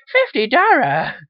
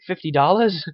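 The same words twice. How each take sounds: First: High, loud, drawn-out mock Chinese accent; cartoonish high-pitched Chinese accent; Shitty Wok guy. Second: Said in the usual way. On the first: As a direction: shout it in a hammed-up Chinese accent. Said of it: "And the guy goes". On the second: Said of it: "And he's like".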